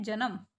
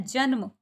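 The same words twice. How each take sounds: First: जन्म said as two syllables, "ja-nam"; full N in जन्म. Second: जन्म with न and म joined, "janm"; half N in जन्म. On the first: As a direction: put a vowel after the न in जन्म: "janam". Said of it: "पूरे ने की साउंड आ रही है". (जन्म में पूरा न, "जनम") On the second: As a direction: run the न straight into म in जन्म, "jan-ma". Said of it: "आधे ने की साउंड आ रही है". (जन्म में आधा न, "जन्-म") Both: Shown as a demonstration.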